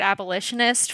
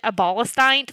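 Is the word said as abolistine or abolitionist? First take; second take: abolitionist; abolistine. First: The word is said in the standard full form. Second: The word is said with a shortened 'stine' ending. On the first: The speaker calls it right. "I learned the word abolitionist" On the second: The speaker calls it wrong. "pronounced it abolistine for like 2 years"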